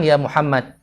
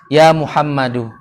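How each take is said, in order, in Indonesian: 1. Nama itu berakhir pada konsonan terakhir. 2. Nama itu berakhir dengan vokal pendek u. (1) "Kalau mau mode aman" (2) "kalau antum sudah belajar"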